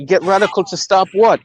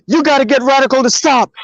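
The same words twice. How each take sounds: First: Said in the usual way. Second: Retold panic, higher and fast; hysterical caller. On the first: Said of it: "I'm like". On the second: Friend phones demanding help, mock-hysterical. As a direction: imitate a frantic caller, pitched up. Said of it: "This motherfucker is hysterical".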